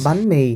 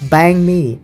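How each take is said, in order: First: It is said with Vietnamese sounds and tones. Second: It is said with English-like sounds, like bang me. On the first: The speaker calls it right. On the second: The speaker calls it wrong.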